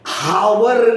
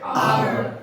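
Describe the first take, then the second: First: The word starts with an audible h sound. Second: The word starts directly with a vowel sound. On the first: The speaker calls it wrong. "आप हावर नहीं पढ़ते" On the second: The speaker calls it right. "H को हटा के पढ़ रहे"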